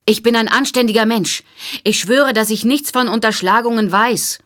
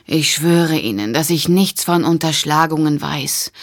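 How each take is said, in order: First: High, loud pleading call; desperate shout. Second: Tired, resigned oath; weary sigh. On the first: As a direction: shout after her, desperate to be believed. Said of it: "rief Harper". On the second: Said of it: "Harper seufzte abgrundtief". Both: A narrator's reading.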